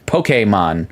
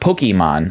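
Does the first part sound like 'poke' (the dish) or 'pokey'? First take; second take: poke; pokey. First: The first syllable sounds like the fish dish poke. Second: The first syllable sounds like the word pokey. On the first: The speaker calls it right. "Poke, like the Hawaiian raw fish dish" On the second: The speaker calls it wrong. "not Pokemon ... like Pokey"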